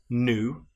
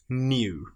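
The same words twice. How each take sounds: First: It starts with a plain oo, no y sound. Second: It starts with a y sound before oo. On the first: The speaker calls it wrong. "rather than just new" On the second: The speaker calls it right. "We've got the y sound in there as well"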